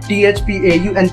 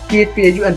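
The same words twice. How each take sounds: First: The letters are said at a slower pace. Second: The letters are said at a faster pace. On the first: "इसे बोलते हैं" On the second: "अब थोड़ा तेज बोलते हैं"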